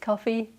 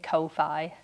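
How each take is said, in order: First: It sounds just like the word coffee. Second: It does not sound like the word coffee. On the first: The speaker calls it right. "I think it's coffee, as in" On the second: The speaker calls it wrong. "I was saying Ko-fi, which I don't think makes sense"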